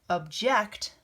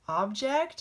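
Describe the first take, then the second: First: The stress is on the second syllable. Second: The stress is on the first syllable.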